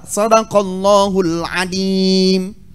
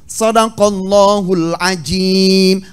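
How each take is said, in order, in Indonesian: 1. Kata terakhir memiliki bunyi 'd'. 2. Kata terakhir memiliki bunyi 'j'. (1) "Sekarang diganti huruf Dha dengan Dal" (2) "huruf Dha diganti dengan huruf Jim"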